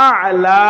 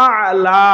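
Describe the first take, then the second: No difference in how they are said.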